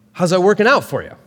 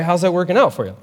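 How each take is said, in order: First: A hint of Doctor Phil, quick and punchy; imitating Doctor Phil. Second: Said in the usual way. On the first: Preacher quoting Paul as Doctor Phil, light mock. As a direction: lightly mimic the TV host's taunt. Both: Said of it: "his best Doctor Phil voice".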